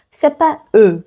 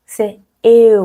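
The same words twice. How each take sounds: First: Said in the usual way. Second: "eu" with e gliding to u; "eu" as a diphthong. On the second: Shown as a demonstration. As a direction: sound both vowels of "eu". ("eu" prononcé e puis u)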